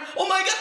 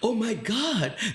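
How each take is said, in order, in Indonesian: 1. Diucapkan dengan cara yang panik dan mendesak. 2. Diucapkan dengan cara yang sama tenangnya. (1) "Kalau kita kan kalau kebakaran" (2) "dia tetap dengan karakternya dia gitu"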